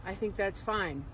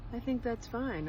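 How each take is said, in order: First: A second, nearly plain try at Trump; barely voiced Trump, close to own voice; Donald Trump impression. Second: Half-hearted Trump voice, then give up; Donald Trump impression. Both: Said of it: "I can't do a Donald Trump impersonation".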